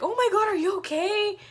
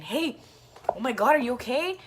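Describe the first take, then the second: First: Much higher, louder voice of a fretting mom; alarmed mom imitation. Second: Lightly imitated concerned bystander, slightly higher; quick check-in, lightly acted; Chris. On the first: Imitating a mom running to the fallen rider, alarmed. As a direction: mimic a mom rushing over, high and loud. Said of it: "and she was like". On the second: Retelling a friend checking on the fallen rider, mildly concerned. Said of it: "I can hear Chris saying".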